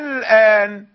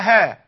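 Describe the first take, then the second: First: The second vowel starts with a softened, eased glottal. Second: The second vowel starts with an h sound. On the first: The speaker calls it right. "بين الهمزة والألف" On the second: The speaker calls it wrong. "ولا أها"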